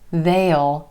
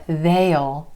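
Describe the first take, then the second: First: It is a contraction with a clear vowel. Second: The same.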